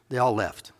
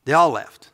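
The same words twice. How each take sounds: First: Said in the usual way. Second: "all" hit louder; they ALL left, said loud with weight on "all"; stress on all. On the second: Shown as a demonstration. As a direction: punch the word "all" loud and falling.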